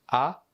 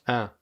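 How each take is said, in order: First: The vowel is open, with the mouth wide. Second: The vowel is nasal, sounding through the nose. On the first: "Une prononciation plus ouverte" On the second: "une prononciation plus nasale"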